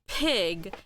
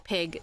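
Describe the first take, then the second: First: The word is drawn out with every sound exaggerated. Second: The word is said quickly at normal conversational speed. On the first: "he's over exaggerating by getting the pronunciation in" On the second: "that's usually how it's supposed to sound like in everyday conversation"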